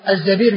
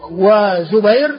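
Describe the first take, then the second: First: الزبير as az-Zabīr; الزبير on the pattern of amīr; fatha on the zay. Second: وزبير drawn out as wa-Zubayr; slow diminutive وزبير; damma on the zay. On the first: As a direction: say الزبير with short a, long ee. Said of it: "بفتح الزاي على وزن أمير". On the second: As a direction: say وزبير slowly, with zu and ay. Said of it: "بضم الزاي مصغر". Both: Shown as a demonstration.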